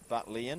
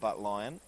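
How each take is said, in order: First: The last syllable sounds like 'lian'. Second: The last syllable sounds like 'lion'. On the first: The speaker calls it right. "the pronunciation is Butlian" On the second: The speaker calls it wrong. "and not Butlion"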